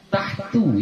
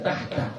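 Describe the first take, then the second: First: The word ends with an 'u' vowel. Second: The word ends with an 'a' vowel. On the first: The speaker calls it right. "bukan tahta" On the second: The speaker calls it wrong. "bukan tahta"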